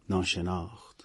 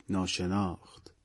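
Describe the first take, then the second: Both takes have the same delivery.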